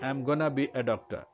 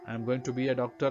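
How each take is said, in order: First: The phrase is reduced to 'I'm gonna'. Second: The phrase is said in full, 'I am going to'. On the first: "ಆಮ್ ಗೊನ ಅಂತ use ಮಾಡೋದ್ರಿಂದ" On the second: "ಅಂತ ಅದರ ಅರ್ಥ"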